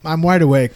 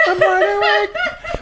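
First: Said in the usual way. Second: Very high, slow, laughing falsetto; silly high voice. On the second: Pretend. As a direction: stretch it out way up high, giggling. Repeats line in silly voice.

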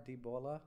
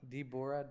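First: Debola with an L sound, rising like a question; Ebola-like name. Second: Said in the usual way. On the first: Shown as a demonstration. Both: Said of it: "Don't you feel it sounds too close to that disease?".

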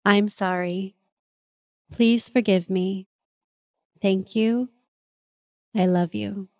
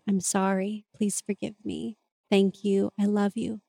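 First: Slow, solemn recitation of the prayer; measured, reverent prayer with pauses. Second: Hushed, soothing apology; tender recitation. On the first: Shown as a demonstration. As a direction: intone each phrase like a sacred mantra. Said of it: "it goes a little something like this". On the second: Retold or imitated. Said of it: "I just recite it out loud, holding them".

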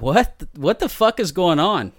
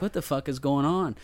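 First: Louder, higher retold disbelief; alarmed bafflement. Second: Lightly puzzled retold question; mild confusion. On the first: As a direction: blurt it out, startled and baffled. Retold reaction to gasps behind door. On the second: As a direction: wonder it half to yourself, bewildered. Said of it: "I'm just confused at this point".

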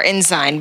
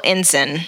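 First: Ensign said as IN-zine; alternative pronunciation. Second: Ensign said as IN-sin; chosen pronunciation. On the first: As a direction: say Ensign with a long i, rhyming with "sign". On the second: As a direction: say Ensign with a short unstressed ending, "IN-sin". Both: Shown as a demonstration. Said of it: "but I'm pronouncing it".

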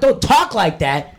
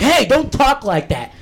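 First: Slow, sneering parrot of the teacher; mocking echo. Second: Higher, slow mock scold from a teacher; retold school teacher warning, drawn out and higher. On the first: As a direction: throw "talk" back at her in mockery. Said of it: "I'm like". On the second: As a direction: play the prim teacher telling him off. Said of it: "They're like".

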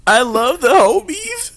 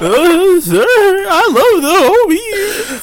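First: High, slow mock sincere voice; drawn out, squeaky declaration; high slow put-on voice. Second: Squeaky, stretched out, laughing through it; very high, very slow put-on voice. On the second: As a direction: drag it out in a high silly voice.

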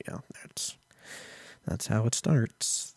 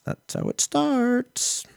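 First: Soft, slow warning; quiet ominous. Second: Very high, slow, eerie voice; ominous movie voice. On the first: Hushed warning to viewers about Neuralink. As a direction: murmur it like a doom prophecy. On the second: Mock doom voice warning viewers about Neuralink. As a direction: sing it out like a horror trailer. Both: Acted.

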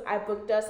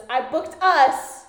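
First: Said in the usual way. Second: "us" loud, high and drawn out; stress on US. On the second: Retold or imitated. Ex announcing his booking to girlfriend, "us" heavily stressed. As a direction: lean hard and slow on "us". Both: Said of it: "Emphasis on us".

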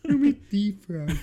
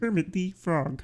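First: High croaky frog puppet; Kermit the Frog voice. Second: Slow, softer frog puppet voice; a light Kermit croak. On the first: Retold or imitated. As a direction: squeeze out a Kermit voice. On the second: Shown as a demonstration. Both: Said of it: "a good Kermit the Frog impression".

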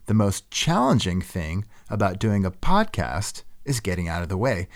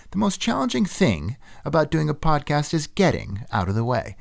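First: Said in the usual way. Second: "challenging" lifted high with an odd rising lilt; stress on random words. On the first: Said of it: "instead of saying". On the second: Shown as a demonstration. Host imitating NPR narrators stressing odd words. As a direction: read it like a nerdy radio narrator, leaning on "challenging". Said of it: "emphasizing something random instead of the expected word".

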